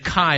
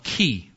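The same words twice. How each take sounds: First: Chi is said the modern way. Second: Chi is said the ancient way. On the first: "we would say chi today" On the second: "In the ancient day, they would call it chi"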